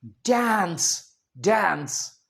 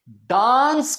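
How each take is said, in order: First: DANCE as "dæns", slowly drawn-out ae; American pronunciation. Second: DANCE as "daans", long aa; British pronunciation. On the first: Teacher answering how Americans say it, "dæns" for डांस. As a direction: say डांस twice, American "daens". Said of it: "American क्या कहेंगे". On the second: Teacher asking for the American version, quoting British "daans" डांस. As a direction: say डांस slowly with open aa. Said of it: "डांस को American क्या कहेंगे". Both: Shown as a demonstration.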